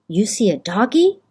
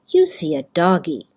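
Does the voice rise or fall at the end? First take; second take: rise; fall. First: The voice rises at the end. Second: The voice falls at the end.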